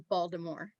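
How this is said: It is said locally, starting like 'bald'. "They say Baltimore. ... it's like bald"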